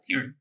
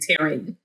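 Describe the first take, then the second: First: The name is said fast, its syllables blended. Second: Both syllables of the name are fully pronounced. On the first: "they say it fast, like Taryn" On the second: "they don't go all the way Taryn"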